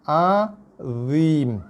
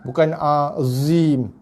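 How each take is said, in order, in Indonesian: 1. Konsonan tengahnya bunyi dha berat. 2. Konsonan tengahnya bunyi z biasa. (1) "Yang betul" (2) "Itu bacaan yang salah bagi bunyi dha"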